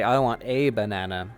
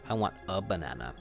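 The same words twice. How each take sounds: First: The word 'a' is said as a full 'ay'. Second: The word 'a' is said as a short 'uh'. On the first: The speaker calls it wrong. "I don't say" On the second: The speaker calls it right. "You usually say uh"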